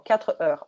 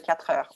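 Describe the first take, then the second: First: The two words are said separately, without linking. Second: The two words are linked smoothly together. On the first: The speaker calls it wrong. "c'est ce que j'entends tout le temps" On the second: The speaker calls it right. "au lieu de"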